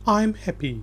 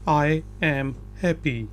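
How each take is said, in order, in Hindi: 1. 'I am' एक syllable में छोटा होकर बोला जाता है। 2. 'I am' दो पूरे शब्दों की तरह बोला जाता है। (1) "नेटिव स्पीकर बोलेगा आई अपोस्ट्रॉफी एम हैप्पी" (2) "लिखने में ये ये बिल्कुल ठीक है"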